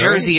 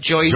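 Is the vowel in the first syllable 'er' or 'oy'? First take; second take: er; oy. First: The first vowel is a plain 'er' sound. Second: The first vowel sounds like 'oy'. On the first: "when they say" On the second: "it sounds more like Joysy"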